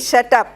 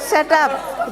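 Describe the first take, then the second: First: It is said in a hostile way. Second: It is said in a friendly way.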